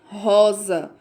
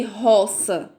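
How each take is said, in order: First: Rosa with the S voiced as Z; right Z sound. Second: Roça with a sharp S sound, not Z; wrong S sound. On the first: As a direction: say rosa with a buzzing Z. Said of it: "você vai dizer rosa". (rosa com som de Z) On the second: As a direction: say roça with a hissing S. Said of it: "Você não vai dizer roça". (roça com som de S) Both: Shown as a demonstration.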